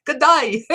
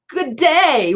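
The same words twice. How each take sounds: First: High, laughing, hammed-up Australian greeting; broad mock-Australian "Good day", with "day" said like "die"; horrible Australian accent. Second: High-pitched, botched Australian greeting; horrible Australian accent. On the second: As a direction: attempt an Australian accent on "good day", "day" left as a plain "day". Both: Shown as a demonstration. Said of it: "What a horrible Australian accent I have".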